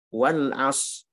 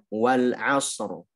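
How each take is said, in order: First: The final r sound is left out. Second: The final r sound is clearly pronounced. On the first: The speaker calls it wrong. "Hilang semua rohnya, itu lahan jali" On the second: The speaker calls it right. "seharusnya wal asr"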